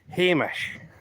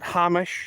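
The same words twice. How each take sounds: First: The name is said in a Scottish way. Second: The name is said in a non-Scottish way. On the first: The speaker calls it right. "That is the word that you use to call people" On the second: The speaker calls it wrong. "not Hamish"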